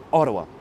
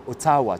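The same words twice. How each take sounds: First: Ottawa with the O stressed, the rest lighter; stress on first syllable. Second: Ottawa without stress on its first syllable; wrong stress. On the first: Streamer teaching English stress to viewers, first syllable of Ottawa stressed. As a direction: hit the opening O of Ottawa. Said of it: "Tu commences par la première syllabe". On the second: Streamer showing viewers how not to say it, unstressed first syllable in Ottawa. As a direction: say Ottawa evenly, the French way, no punch on O. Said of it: "on ne dit pas". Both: Shown as a demonstration.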